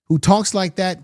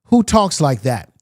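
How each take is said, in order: First: "talks" lifted and stressed at normal pace. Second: Slow, with the word "Who" hit hard; stress on who. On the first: To his viewers, stressing "talks" in disbelief. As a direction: push the weight onto "talks". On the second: To his viewers, hitting "Who" slowly in disbelief. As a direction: lean on "Who" and let the question drag. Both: Real, not acted. Rhetorical outrage at the quote.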